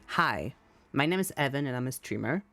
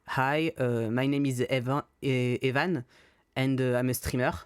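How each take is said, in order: First: It is said in his normal accent. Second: It is said in a put-on French accent.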